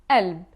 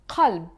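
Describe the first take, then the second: First: The word starts with a glottal stop instead. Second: The word starts with a deep throat q sound. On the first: This is the Levantine dialect form. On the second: This is the Standard Arabic form.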